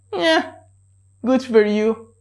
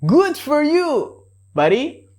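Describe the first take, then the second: First: High mocking yeah then flat good for you; sarcastic. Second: Sincere congratulations; real praise. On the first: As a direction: dismiss them sarcastically. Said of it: "the sarcastic way". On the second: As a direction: genuinely cheer your buddy on. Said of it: "the real way". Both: Shown as a demonstration.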